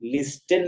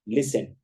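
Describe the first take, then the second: First: The t sound is pronounced in the middle. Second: The t sound is silent in the middle. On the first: The speaker calls it wrong. "लिस्टन नहीं पढ़ा जाएगा" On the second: The speaker calls it right. "उसे पढ़ा जाएगा लिसन"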